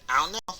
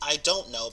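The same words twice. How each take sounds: First: The D sound is dropped entirely. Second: Every word is said fully and clearly. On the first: "or even ... they just take out the D" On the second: "instead of saying I don't know"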